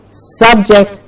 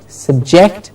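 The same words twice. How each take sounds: First: SUBject, full first vowel; stress on first syllable. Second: SubJECT, as "sub-JECT" with weak first vowel; stress on second syllable. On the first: Teacher contrasting word pairs, front-stressed SUBject. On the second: Teacher contrasting word pairs, back-stressed subJECT. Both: Shown as a demonstration. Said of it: "Do you hear the difference?".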